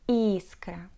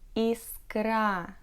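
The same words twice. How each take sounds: First: The stress is on the first syllable. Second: The stress is on the last syllable. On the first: The speaker calls it right. "Если верно" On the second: The speaker calls it wrong. "Коль неверно, то"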